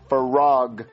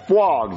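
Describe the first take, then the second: First: A clear r sound follows the f. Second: A w sound follows the f, with no r. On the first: The speaker calls it right. "You gotta say frog" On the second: The speaker calls it wrong. "There's no W. You're saying fwog"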